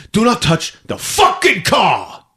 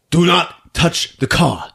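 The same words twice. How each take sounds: First: Slow high shout peaking on "fucking"; escalating angry warning. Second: Slow, higher, spaced-out words; controlled angry warning. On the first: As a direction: explode on "fucking", every word spaced out. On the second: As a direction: warn her word by word, holding back rage. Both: Acted. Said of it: "he's ready to punch her".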